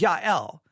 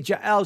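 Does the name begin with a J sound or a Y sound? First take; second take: Y sound; J sound. First: The name begins with a Y sound. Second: The name begins with a J sound. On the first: "she changes the J to the Y sound" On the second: "she didn't say Jael"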